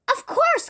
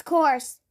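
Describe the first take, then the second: First: High, bright first word of the echo; twin's echo talk. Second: The echo word. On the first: Miss Twin welcomes thirsty Mister Nosy, high and lilting. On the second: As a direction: let the word fall away like an echo. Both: Acted. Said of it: "why she was talking like that".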